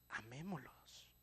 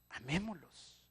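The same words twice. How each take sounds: First: Soft, slow, tender Amémoslos; tender plea. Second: Said in the usual way. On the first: Acted. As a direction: coax them gently into love. Repeated plea, softer take. (Amémoslos, suave y lento, con ternura)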